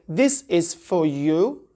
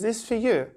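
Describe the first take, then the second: First: Each word is said fully and separately. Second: The words run together, with 'for' reduced.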